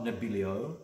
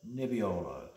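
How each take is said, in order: First: Nebbiolo garbled as neb-BIL-ee-oh; mispronounced Nebbiolo. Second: Nebbiolo as neb-ee-OH-lo, falling; correct Italian pronunciation. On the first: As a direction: swap the sounds in Nebbiolo to neb-BIL-ee-oh, rising. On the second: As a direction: stress the long O in Nebbiolo, L in last syllable. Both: Shown as a demonstration. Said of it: "It's not Nebbiolo".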